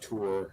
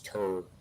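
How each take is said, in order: First: The word has a standard, non-regional vowel. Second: The word has a Montana regional vowel. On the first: The speaker calls it wrong. "It's not tour" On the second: The speaker calls it right. "That's how we say it"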